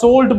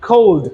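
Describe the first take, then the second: First: The word begins with an s sound. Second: The word begins with a k sound. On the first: The speaker calls it wrong. "আমরা সোল্ড বলতে পারবো না" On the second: The speaker calls it right. "সি O L D কোল্ড"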